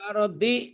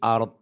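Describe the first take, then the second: First: The word ends with a final vowel sound. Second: The word ends without its final vowel. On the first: The reading continues without stopping. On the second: The reading stops at this word.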